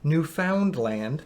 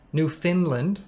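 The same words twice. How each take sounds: First: Newfoundland said very slowly as NEW-FOUND-LAND; separate syllables. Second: Newfoundland run together fast as NOO-fin-land; local pronunciation. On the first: Mocking how outsiders split Newfoundland, slow and separate. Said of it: "people pronounce it like separate syllables". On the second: Newfie showing how locals say it, quick and blended. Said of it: "a Newfie says it's Newfoundland". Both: Shown as a demonstration.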